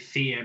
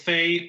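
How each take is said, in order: First: The name is said with a Swedish pronunciation. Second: The name is said with an English pronunciation. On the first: "it's actually a Swedish word meaning fairy" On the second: "I normally call it Fae. That that makes more sense"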